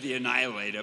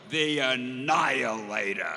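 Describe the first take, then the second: First: It is said in a plain, ordinary way. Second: It is said in a dramatic, grand way.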